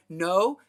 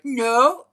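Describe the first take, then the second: First: Retold loud no to the cat; acted refusal. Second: Much louder, higher retold no; escalated acted refusal. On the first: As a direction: argue back as the stubborn cat. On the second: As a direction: burst out as the indignant cat. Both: Retelling an escalating argument with cat.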